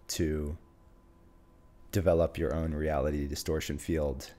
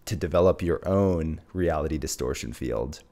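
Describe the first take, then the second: First: The voice is flat with little pitch movement. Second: The voice is varied, confident and energetic. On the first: The speaker sounds unpracticed and unconvincing. The speaker calls it wrong. "The first one is monotone, and let's say I haven't practiced my delivery" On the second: The speaker sounds confident and inspiring. The speaker calls it right. "let's add a sense of tonality, of confidence and inspiration into the delivery"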